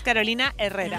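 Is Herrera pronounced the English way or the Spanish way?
Spanish. Herrera is pronounced with a Spanish-style sound. The speaker calls it right. "es Carolina Herrera"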